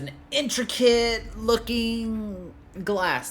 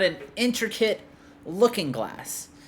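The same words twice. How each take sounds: First: 'Looking' is grouped with 'intricate', then 'glass'. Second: 'Looking' is grouped with 'glass' as one compound. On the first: It is a piece of glass that looks intricate. The speaker calls it wrong. "I read it as" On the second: It is an intricate mirror. The speaker calls it right. "You found a fucking mirror"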